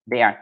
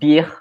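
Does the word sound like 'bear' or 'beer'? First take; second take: bear; beer. First: The vowel sounds like the one in 'bear'. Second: The vowel sounds like the one in 'beer'. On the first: This is the actual name of the app. The speaker calls it right. "the app is called Bear" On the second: A non-native speaker mispronounced the name. The speaker calls it wrong. "It sounds like beer, but in German"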